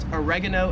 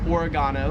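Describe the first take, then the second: First: It is said with an American pronunciation. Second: It is said with an Australian pronunciation. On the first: "We would call it oregano in the States" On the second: "here in Australia, it is pronounced"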